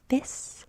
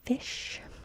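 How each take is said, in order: First: The word ends with a plain s sound. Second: The word ends with a sh sound. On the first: A young child who cannot yet make the sound says it. The speaker calls it wrong. "a child is likely to say fis" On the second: An adult says it. The speaker calls it right. "instead of fish"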